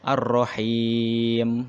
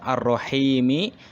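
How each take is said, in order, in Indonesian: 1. Kata ini diakhiri konsonan mati. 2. Kata ini diakhiri vokal pendek. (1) "kalau dibaca wakof ya, ... berhenti. Jadi mimnya seolah-olah disukunkan" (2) "kalau diwasolkan"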